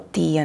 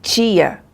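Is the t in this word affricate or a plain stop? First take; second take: plain stop; affricate. First: The t is a plain stop without hissing. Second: The t is followed by a hissing sound. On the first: "alguns de vocês vão falar só tia" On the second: "Primeiro você tem uma explosão e depois um chiado"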